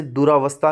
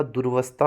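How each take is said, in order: First: दुरावस्था with a long aa after र; wrong form. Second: दुर्वस्था with र joined straight to व; दुर्वस्था said tight, र-व; correct form. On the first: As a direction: show दुरावस्था as the mistake. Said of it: "नहीं होता". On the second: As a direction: give the right दुर्वस्था, no aa. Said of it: "होता है". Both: Shown as a demonstration.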